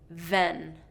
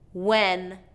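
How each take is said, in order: First: It begins with a v sound against the teeth. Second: It begins with a rounded-lip w sound. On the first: The speaker calls it wrong. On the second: The speaker calls it right.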